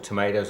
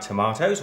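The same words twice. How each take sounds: First: The word has an American pronunciation. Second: The word has a British pronunciation.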